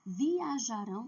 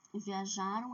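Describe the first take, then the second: First: Viajarão with a stressed final -rão; future ending stressed. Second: Viajaram with a plain closing nasal -am; Viajaram, unstressed ending, said as a past form; past-tense ending. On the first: Teacher shows students the future form, final syllable stressed. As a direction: lean on the last syllable of Viajarão. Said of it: "Viajarão termina com A, O". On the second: Teacher shows students the past form, plain nasal ending. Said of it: "Viajaram é passado". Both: Shown as a demonstration.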